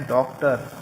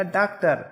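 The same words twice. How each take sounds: First: "डॉक्टर" with a rounded English o vowel; "डॉक्टर" properly, first vowel ऑ; correct pronunciation. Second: "डॉक्टर" said as "डाक्टर" with an open a; "डॉक्टर" wrongly, first vowel as आ; wrong pronunciation. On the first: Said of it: "इसको लगा देने से इसका उच्चारण बन जाता है". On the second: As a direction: demonstrate the mistake: "डॉक्टर" with flat aa vowel. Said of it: "इस आगत ध्वनि का प्रयोग नहीं करेंगे तो ये हो जाएगा". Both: Shown as a demonstration.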